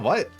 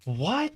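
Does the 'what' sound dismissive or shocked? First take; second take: dismissive; shocked. First: It sounds dismissive and annoyed, not surprised. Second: It sounds shocked and disbelieving, genuinely surprised. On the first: The claim is nonsense and the speaker wants to be left alone. "I would have said it in the, like... bro, what are you talking about? Go play Fortnite. Leave me alone. Type of way" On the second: The speaker cannot believe the claim is true. "not in the like... what? Is this real? Like, type of way that she says it?"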